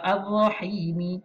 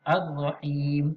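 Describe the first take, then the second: First: The word ends with an extra vowel after m. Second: The word ends on a plain m sound. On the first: The speaker calls it wrong. "Bukan baca Ar-Rahimi. Ha, itu salah" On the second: The speaker calls it right. "huruf mim di ujung ni tak disebut"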